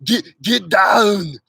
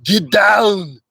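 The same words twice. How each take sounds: First: "Get, get down" drawn out slowly in an Austrian accent; slow Arnold line. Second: Punchy Austrian-accented "Get down", louder; Arnold line. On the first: Repeating the practice line slower, Austrian accent. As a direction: stretch the words like Arnold. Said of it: "You have to start with". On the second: Teaching viewers the easy Arnold line, Austrian accent. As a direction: bark it like Arnold. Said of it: "start with the easy stuff". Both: Shown as a demonstration.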